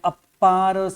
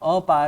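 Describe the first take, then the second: First: The p sound is doubled and held. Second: The p sound is single and short. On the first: The speaker calls it wrong. "अपार संसार नहीं है" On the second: The speaker calls it right. "अपार है। ... यहाँ पे अप्पा नहीं बोलना है"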